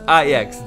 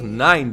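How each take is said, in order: First: The name is said as two syllables, Ajax. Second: The name is said like the number nine. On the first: The speaker calls it right. "it's Ajax" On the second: The speaker calls it wrong. "It's not nine"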